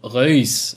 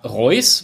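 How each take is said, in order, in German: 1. Es wird holländisch ausgesprochen. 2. Es wird deutsch ausgesprochen. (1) "wenn ich es jetzt richtig ausspreche, ich kann kein Holländisch, Reus ausgesprochen" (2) "würde man im ersten Moment sagen, schreibt sich wie der Fußballer"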